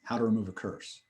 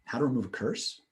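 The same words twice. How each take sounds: First: "How to remove a curse" said very softly with a fall at the end; soft flat statement echo. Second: "How to remove a curse?" said softly with a rise on "to"; gentle rising echo; questioning echo. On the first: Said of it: "Or I could say". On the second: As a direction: ask the short echo softly. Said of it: "I could say". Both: Shown as a demonstration.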